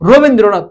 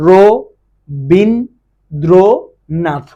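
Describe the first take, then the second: First: Said in the usual way. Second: রবীন্দ্রনাথ very slowly in four separated syllables. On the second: Shown as a demonstration. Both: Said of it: "কয়বার উচ্চারণ করতে পারো".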